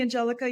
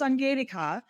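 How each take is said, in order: First: The name is said with an English pronunciation. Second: The name is said with a German pronunciation. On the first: It is the easier form for others. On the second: It honors the family's original naming.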